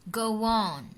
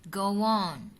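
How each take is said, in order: No difference in how they are said.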